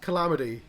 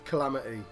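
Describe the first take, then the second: First: The T is not replaced by a gap. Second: The T is replaced by a brief gap. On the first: The speaker calls it wrong. "But you can't have calamity" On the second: The speaker calls it right. "leave a turn of gap there and leave it as calamity"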